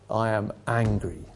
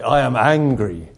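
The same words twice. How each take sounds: First: Quiet anger. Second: Slow, louder angry declaration; loud anger. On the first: Principal opening his reply from the pulpit, quietly angry. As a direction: say it softly, as a restrained first statement. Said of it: "then he repeated it loudly". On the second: Principal repeating himself from the pulpit, loudly angry. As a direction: repeat it loudly, drawing out each word. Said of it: "he repeated it loudly". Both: Retold or imitated.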